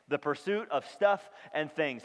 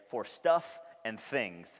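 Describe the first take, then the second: First: Said in the usual way. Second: "stuff and things" said slowly, each word weighted; slow stress on stuff and things. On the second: Shown as a demonstration. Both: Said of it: "we're gonna use this phrase".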